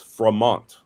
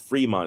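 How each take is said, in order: First: The first vowel sounds like 'ay'. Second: The first vowel sounds like 'ee'. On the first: The pronunciation follows the accent mark in the spelling. The speaker calls it wrong. "it should be pronounced as an A" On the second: The pronunciation follows local usage, not the spelling. The speaker calls it right. "I had a ton of people correcting me"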